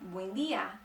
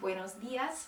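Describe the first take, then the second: First: The word endings are dropped. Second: The words are pronounced in full. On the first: "they cut off the ends of most of the words" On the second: "instead of saying buenos dias"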